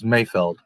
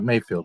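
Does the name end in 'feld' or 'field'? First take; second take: feld; field. First: The name ends with a short 'feld' sound. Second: The name ends with a long 'field' sound. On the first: The speaker calls it right. "It's Mayfeld" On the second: The speaker calls it wrong. "It's not Mayfield"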